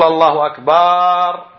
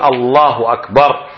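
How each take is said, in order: First: The vowel after the b is drawn out long. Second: The vowel after the b is kept short. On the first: It names a large drum rather than saying greater. The speaker calls it wrong. "فلا تقول الله أكبر" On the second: It says God is greater. The speaker calls it right. "وإنما قول الله أكبر"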